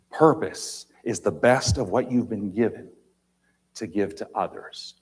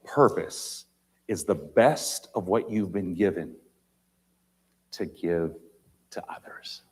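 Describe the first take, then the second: First: Said in the usual way. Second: With long pauses, trailing to a whisper; slow, dropping to a whisper on "to others"; slow and deliberate. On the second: Shown as a demonstration. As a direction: let each phrase sink in, fading out. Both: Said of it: "Listen carefully".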